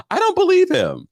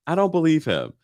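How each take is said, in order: First: Mock disbelief. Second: Said in the usual way. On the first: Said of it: "repeated disbelief". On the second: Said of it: "repeated plainly".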